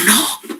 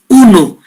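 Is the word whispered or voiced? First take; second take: whispered; voiced. First: The word is said in a whisper. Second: The word is said in a full voice. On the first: The chest carries even a whispered voice. "cuchicheada la voz" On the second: The chest carries the spoken voice clearly. "eso se llama broncofonía"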